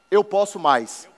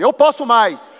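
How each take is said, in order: First: It is said at normal, softer volume. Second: It is said louder and more forcefully.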